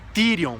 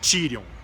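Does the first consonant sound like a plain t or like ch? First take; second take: plain t; ch. First: The t is a plain stop without palatalization. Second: The t is palatalized, sounding like ch. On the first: The speaker calls it right. "é Tirion" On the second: The speaker calls it wrong. "nunca Tirion"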